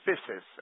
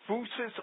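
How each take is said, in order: First: The first vowel sounds like 'ee'. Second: The first vowel sounds like 'oo'. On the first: This follows the modern scholars' usual pronunciation. "I could say physis, and that would probably be more recognizable" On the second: This follows the speaker's own view of the old vowel. "So I pronounce it like a U"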